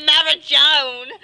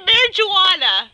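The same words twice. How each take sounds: First: "marijuana" with its ending squashed into a drawn-out "-shown"; Australian-style pronunciation. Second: "marijuana" with a full "-wanna" ending; corrected pronunciation. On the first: Acted. Claiming how Australians call it, "marijuana" ending like "-joan". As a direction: say "marijuana" as "mara-jone", mock Australian. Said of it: "they call it". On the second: Shown as a demonstration. Correcting a friend's impression, "marijuana" ending in "-wanna". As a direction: say "marijuana" out fully as "mari-wanna", loudly. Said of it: "He would say marijuana".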